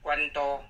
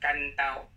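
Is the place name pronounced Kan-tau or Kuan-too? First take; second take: Kuan-too; Kan-tau. First: It is pronounced with the reading Kuan-too. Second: It is pronounced with the local form Kan-tau. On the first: The speaker calls it wrong. "这是不对的" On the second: The speaker calls it right. "地方音它是干刀"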